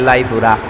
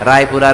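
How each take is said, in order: First: The word begins with an l sound. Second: The word begins with an r sound.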